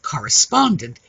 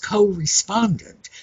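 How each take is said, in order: First: It begins with a 'core' sound, run together. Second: It begins with a separate 'co' sound. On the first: "they will not pronounce it correspondent" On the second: "it's co-respondent. They pronounce it differently"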